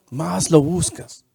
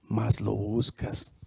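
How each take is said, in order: First: Said in the usual way. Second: Low, slow, soft "más lo buscas"; hushed first take. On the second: Shown as a demonstration. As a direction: drop your voice and slow down.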